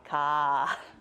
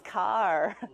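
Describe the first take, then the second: First: The final r is dropped, ending breathy. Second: The final r sound is clearly pronounced. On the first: "the Bostonians would not pronounce the R. It would be more of an H sound" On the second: "it's car. There actually would be an R there"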